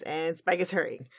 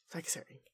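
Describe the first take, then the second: First: Said in the usual way. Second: Hushed dramatic whisper. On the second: Acted. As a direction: whisper it for suspense.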